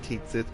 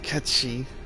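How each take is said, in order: First: It sounds like 'Kate Sith', read as spelled. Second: It sounds like 'Ketchee', as two short syllables. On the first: This is the common but incorrect reading. The speaker calls it wrong. "everyone for the years has been calling it Cait Sith" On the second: This is the original Gaelic pronunciation. The speaker calls it right. "the proper, proper Gaelic pronunciation is Ketchi"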